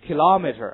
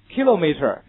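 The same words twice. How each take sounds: First: Loud American "Kilometer", stressed on LOM; American English. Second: British "kilometer", stressed on KI with a long o; British English. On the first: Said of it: "美国人怎么读的". (美式发音读Kilometer，重音在第二音节) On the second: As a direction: say KI-lo-meter the British way. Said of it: "kilometer是英式的读法". (英式发音读kilometer，重音在第一音节) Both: Shown as a demonstration.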